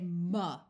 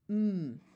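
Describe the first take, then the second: First: The m sound is followed by an uh vowel. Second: The m sound is held with nothing after. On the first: The speaker calls it wrong. "We don't say ma" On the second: The speaker calls it right. "try to have the pure sound with no nothing added after"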